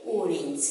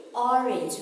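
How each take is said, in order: First: "orange" opening on long oh; long O mispronunciation. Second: "orange" opening on short aw; short O pronunciation. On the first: Teacher warning children, long-O orange. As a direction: say "orange" wrongly as oh-rin. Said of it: "We don't say orange". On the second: Teacher giving children the taught form, short-O orange. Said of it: "We say orange". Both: Shown as a demonstration.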